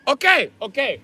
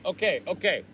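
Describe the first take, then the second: First: High nasal-free okay repeated; grudging landlord giving in; exaggerated Asian accent okay; mock landlord accent. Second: Said in the usual way. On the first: Landlord voice in phone quarrel.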